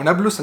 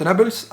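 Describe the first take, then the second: First: Said in the usual way. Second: First نابلس said the wrong way; the mistaken pronunciation of نابلس; mispronounced place name. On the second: Shown as a demonstration. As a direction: botch the vowels in نابلس, as mispronounced earlier. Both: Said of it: "انا قعدت انطق اسمها غلط".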